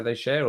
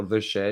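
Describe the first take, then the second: First: THEY said as "thay"; "they share". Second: THE said as "thuh"; "the share". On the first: Streamer puzzling over a viewer's message, "they share" with a full THEY. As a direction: say "they" with a clear long A. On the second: Streamer puzzling over a viewer's message, "the share" with a short THE. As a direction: say "the" with a short neutral vowel. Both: Shown as a demonstration. Weighing two readings of message.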